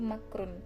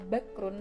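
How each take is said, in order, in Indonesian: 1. Kata ini dimulai dengan bunyi 'm'. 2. Kata ini dimulai dengan bunyi 'b'. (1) "huruf ba diganti dengan mim" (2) "dari asal kata"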